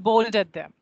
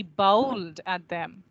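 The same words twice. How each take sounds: First: BOWLED with a pure "o", no glide; wrong version demo. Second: BOWLED with a wide gliding "ow" vowel; correct diphthong demo. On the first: Teacher shows students what to avoid, flat-vowelled BOWLED. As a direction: say BOWLED quickly as plain "bold". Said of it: "It's not bowled at them". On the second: Teacher models the right form for students, gliding BOWLED. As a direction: say BOWLED slowly, sliding through the vowel. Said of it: "It is he bowled at them". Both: Shown as a demonstration.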